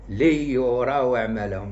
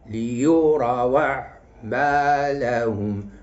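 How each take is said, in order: First: The second and fourth syllables carry no stress. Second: The second and fourth syllables carry the stress. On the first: The speaker calls it wrong. "ما نقولش" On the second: The speaker calls it right. "المقطع الرباعي خص النبر يكون على الثاني وعلى الرابع"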